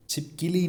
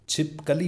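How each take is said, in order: First: छिपकली said as chhip-ki-li; mispronunciation demo. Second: छिपकली as chhip-ka-li; correct pronunciation. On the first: Teacher shows the mistake, छिपकली mispronounced as chhip-ki-li. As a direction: swap ka for ki in छिपकली. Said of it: "छिपकली नहीं". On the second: Teacher models the word, छिपकली pronounced chhip-ka-li. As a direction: say छिपकली with a short a in ka. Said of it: "छिपकली होता है". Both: Shown as a demonstration.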